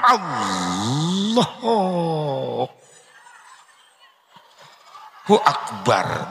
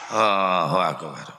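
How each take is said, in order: First: It is said intensely, with deep concentration. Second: It is said carelessly, without focus.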